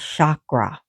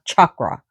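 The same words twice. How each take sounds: First: The name begins with an 'sh' sound. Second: The name begins with a 'ch' sound. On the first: The speaker calls it right. "but S A K R A, but the S has a hyphen on it" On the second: The speaker calls it wrong. "Not chakra, Not with a C H"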